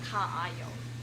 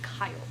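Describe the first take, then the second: First: The two a sounds are said separately. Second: The two a sounds merge into one. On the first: The speaker calls it wrong. "it's not like ka ayo, right? That would be really weird" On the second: The speaker calls it right. "It's just kayo. ... you're combining the syllables"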